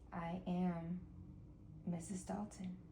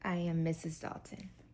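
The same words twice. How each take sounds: First: It is said fairly quietly. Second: It is said louder.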